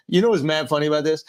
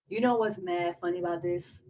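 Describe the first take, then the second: First: Mock casual delivery, fast; lightly imitated Andrew; imitating Andrew. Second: A touch of his cadence; mock his phrase; lightly imitated Andrew; imitating Andrew. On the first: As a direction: parrot his line. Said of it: "how he really talks". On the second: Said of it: "I just showed y'all how he really talks".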